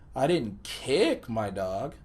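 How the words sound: The word kick carries the emphasis. Something else was done to the dog. "placed the emphasis on the word kick"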